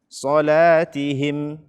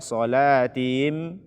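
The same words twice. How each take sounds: First: The h and its i vowel are clear. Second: The h and its i vowel are blurred. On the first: The speaker calls it right. "bacalah dengan benar" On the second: The speaker calls it wrong. "Jangan dibaca... Tidak dijelaskan kasrohnya. Dan tidak dijelaskan ha-nya"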